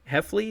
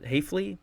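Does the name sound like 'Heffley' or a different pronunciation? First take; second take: Heffley; different. First: The name is said like the surname Heffley. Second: The name is said unlike the surname Heffley.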